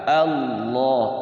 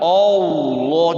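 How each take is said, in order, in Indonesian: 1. Vokal pertama adalah bunyi a terbuka. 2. Vokal pertama adalah bunyi o membulat. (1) "Kalau takbir juga a" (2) "Jangan Allah, jangan pakai o"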